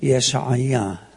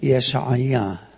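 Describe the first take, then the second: First: The name is said in a Hebrew way. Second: The name is said in a Hebrew way.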